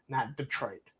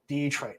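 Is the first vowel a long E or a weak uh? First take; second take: weak uh; long E. First: The first vowel is a weak uh sound. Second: The first vowel is a long E sound. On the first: The speaker calls it wrong. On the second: The speaker calls it right. "So it is a hard E"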